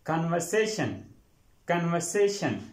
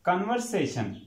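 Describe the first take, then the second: First: "कन्वर्सेशन" with the r dropped, kan-vuh-SAY-shun; correct pronunciation. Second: "कन्वर्सेशन" with a fully sounded r in the second syllable; mispronounced word. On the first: Teacher repeats the right form for students, correctly pronounced. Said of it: "ये word होता है कन्वर्सेशन". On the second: Teacher introduces the common wrong reading to students, mispronounced. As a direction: say "कन्वर्सेशन" as it is spelt, r pronounced. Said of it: "ये कन्वर्सेशन नहीं होता". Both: Shown as a demonstration.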